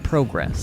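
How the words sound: The word has a British pronunciation.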